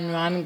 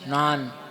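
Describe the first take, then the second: First: The word begins with a 'gy' sound. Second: The word begins with an 'n' sound. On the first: This is how the speaker's own community says it. "हमारे यहाँ ज्ञान बोलते हैं" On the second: This is how people in the current place say it. "वो नान बोलते हैं"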